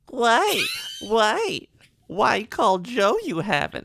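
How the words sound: It is said in a baby voice.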